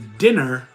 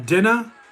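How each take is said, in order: First: Plain accent, with the final r pronounced. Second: Boston accent, with the final r dropped.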